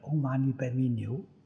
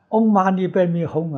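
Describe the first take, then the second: First: The final syllable is said as niu. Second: The final syllable is said as hong. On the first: The speaker calls it wrong. "他念的是唵嘛呢呗咪牛" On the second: The speaker calls it right. "你念这个字音念错了"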